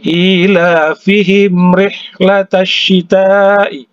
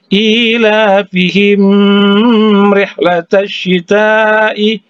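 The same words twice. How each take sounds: First: The m is said clearly without a nasal hum. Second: The m is held with a nasal hum. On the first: The speaker calls it right. "jangan didengungkan" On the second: The speaker calls it wrong. "Misalnya yang salah"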